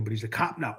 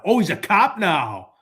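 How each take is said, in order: First: Said in the usual way. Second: Slow, drawn-out oh of realization; knowing, amused realization; mock surprise. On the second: Real, not acted. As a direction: stretch it out like it just sank in.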